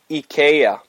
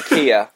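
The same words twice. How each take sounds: First: The name is pronounced the Swedish way. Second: The name is pronounced the English way. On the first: This is how the name should be said. The speaker calls it right. "it's supposed to be said IKEA" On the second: This is how others say the name. The speaker calls it wrong. "Och så säger de IKEA"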